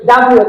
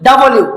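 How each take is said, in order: First: "ডাব্লিউ" as dab-lio; no vowel between b and l in "ডাব্লিউ"; incorrect local pronunciation. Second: "ডাব্লিউ" as da-bo-liu; correct international pronunciation. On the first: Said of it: "কোনোভাবে এটা মেনে নেয় না". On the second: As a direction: put a short vowel between b and l in "ডাব্লিউ". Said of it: "এটা কি হবে?". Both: Shown as a demonstration.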